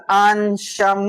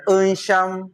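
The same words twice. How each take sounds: First: "Ansham" starting on a full open ah; correct first vowel. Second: "Ansham" begun on a schwa, like "uhn-sham"; mistaken schwa vowel. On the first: Teacher correcting learners on Ansham, clear open ah. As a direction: stretch the open A that begins "Ansham". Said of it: "so this one is Ansham". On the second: Teacher showing learners the mistake, schwa-initial "uhn-sham". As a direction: slowly say "Ansham" with uh replacing the first ah. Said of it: "not Ansham". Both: Shown as a demonstration.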